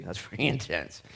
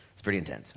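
First: Laughing. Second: Said in the usual way. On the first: Real, not acted.

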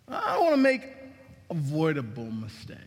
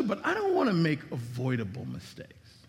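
First: Preacher hammering the point home; emphatic repeat. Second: Said in the usual way. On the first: Shown as a demonstration.

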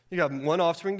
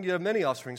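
First: "one" stressed against "many". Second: "many" stressed against "one". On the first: Preacher leaning on "one". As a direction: lean on "one". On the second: Preacher setting "many" against "one". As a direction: hit the word "many". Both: Shown as a demonstration.

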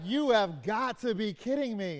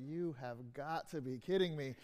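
First: Thrilled, stressing "You"; can't believe her luck; excited disbelief. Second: Softer and lower, flat despair on "kidding"; a man at the end of his rope; dejected disbelief. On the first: Daughter reacting to her brand new car, overjoyed disbelief. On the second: Man discovers his car was robbed, weary despair. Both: Retold or imitated. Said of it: "two different stories where they have the same words".

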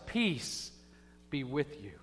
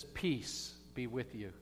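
First: Emphatic second blessing; stressed blessing. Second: Soft, slow, quiet peace be with you; soft first blessing; gentle blessing. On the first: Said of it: "He says it twice". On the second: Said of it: "he doesn't just say it once". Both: Shown as a demonstration.

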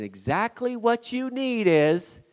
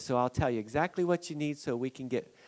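First: "Exactly what you need is" slow, high and loud, stress on "what"; "what" stretched and punched, pitch lifted; emphatic repeat. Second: Said in the usual way. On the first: Shown as a demonstration. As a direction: lean hard on "what" and slow right down. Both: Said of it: "repeats phrase with emphasis".

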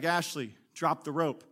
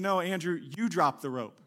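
First: Said in the usual way. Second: YOU stressed, turning it back on him. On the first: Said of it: "he's like". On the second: Acted. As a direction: throw the weight onto YOU. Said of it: "and she's saying".

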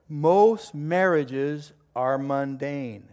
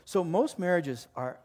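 First: "most marriages are mundane" drawn out very slowly, each word weighted; slow announcement. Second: Said in the usual way. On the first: Shown as a demonstration. Pastor announcing to the congregation, slow and deliberate. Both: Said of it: "I'm gonna announce it".

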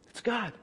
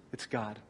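First: Said in the usual way. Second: 轻声压低，敬畏地说“God”; hushed reverent. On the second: Acted. Repeats the phrase.

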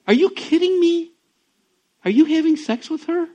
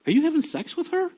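First: High, loud disbelieving throw-back; incredulous echo. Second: Pointed question rising at the end; retold pastor's blunt question to his friend. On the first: Retold or imitated. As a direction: toss the question back in disbelief. Friend echoes the question back. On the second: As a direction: ask it straight out, pitch climbing.

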